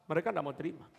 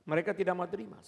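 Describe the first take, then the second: No difference in how they are said.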